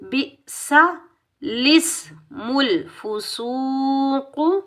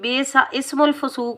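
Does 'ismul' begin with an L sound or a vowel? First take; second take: L sound; vowel. First: The word after the first starts with an L. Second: The word after the first starts with a vowel. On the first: The speaker calls it right. "लाम को सीन के साथ मिलाएंगे" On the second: The speaker calls it wrong. "जो कि बिल्कुल गलत है। ऐसे नहीं पढ़ेंगे।"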